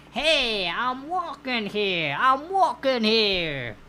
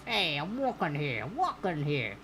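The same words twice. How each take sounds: First: Put-on loud, drawn-out New York accent shout; New York accent yell. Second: Put-on New York accent. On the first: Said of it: "In a New Yorkian styled accent". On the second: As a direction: lower New York accent, without the yell. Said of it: "if that was New Yorkian enough".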